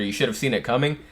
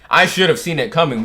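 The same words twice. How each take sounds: First: Said in the usual way. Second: "I" pushed up and louder; "I" stressed, rest falls away. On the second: Shown as a demonstration. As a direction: lean on "I" to own the blame.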